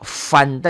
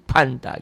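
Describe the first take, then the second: First: The word begins with an F sound. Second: The word begins with a P sound. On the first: The speaker calls it right. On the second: The speaker calls it wrong.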